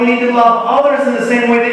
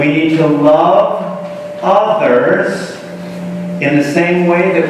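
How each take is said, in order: First: The phrase is spoken quickly. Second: The phrase is spoken slowly. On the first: The speaker calls it wrong. "I said that too quickly" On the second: The speaker calls it right. "Let me say it again"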